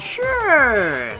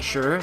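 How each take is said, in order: First: The vowel is drawn out and sounds sarcastic. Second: The vowel is short and the tone is plain. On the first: The speaker does not really mean it. "the more use you add, the more sarcastic you sound" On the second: The speaker simply agrees. "if you just say sure, then it's like, okay, normal"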